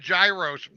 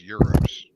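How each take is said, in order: First: The word begins with a sounded G. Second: The word begins without any G sound. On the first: The speaker calls it wrong. "I called it a gyros one time" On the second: The speaker calls it right. "it's pronounced euros"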